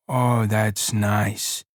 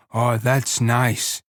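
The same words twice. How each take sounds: First: Very slow, lower and lost in it; dreamy pleasure. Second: Slow, savoring and contented; dreamy pleasure. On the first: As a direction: sink into the words. Lenny repeating, slower. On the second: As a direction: drawl it out dreamily. Lenny savoring stroking hair. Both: Acted.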